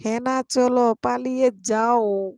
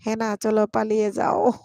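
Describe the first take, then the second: First: Drawn-out teasing. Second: Said in the usual way. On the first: Shown as a demonstration. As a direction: drag it out teasingly. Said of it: "repeated slower, teasing". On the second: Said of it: "reading comment then repeating".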